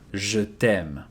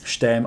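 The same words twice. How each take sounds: First: The vowel in 'je' is fully pronounced. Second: The vowel in 'je' is dropped. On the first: It shows true, deep feelings. "then you will not devocalize e here" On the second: It is a casual phrase said often. "Unless it's something that you say quite often, many times"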